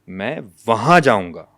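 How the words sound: The second word carries the main stress. The place is what matters. "अब दूसरा लफ्ज है वहां।"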